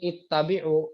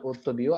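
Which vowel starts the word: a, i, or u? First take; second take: i; u. First: The word begins with an i vowel. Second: The word begins with a u vowel. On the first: The speaker calls it right. "dibaca di sini ittabi'u" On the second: The speaker calls it wrong. "bukan utubi'u"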